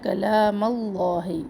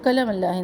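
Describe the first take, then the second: First: The second vowel of the first word is long. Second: The second vowel of the first word is short. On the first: The speaker calls it right. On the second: The speaker calls it wrong.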